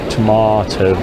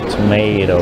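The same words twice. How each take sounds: First: It is said with a British accent. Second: It is said with an American accent. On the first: The speaker calls it right. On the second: The speaker calls it wrong. "not tomato"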